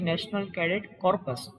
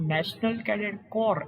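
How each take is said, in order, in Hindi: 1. आखिरी शब्द के अंत में 'ps' की ध्वनि है। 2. आखिरी शब्द के अंत में 'ps' की ध्वनि नहीं है। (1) "નહીં કે" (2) "એવું ઉચ્ચારણ થવું જોઈએ"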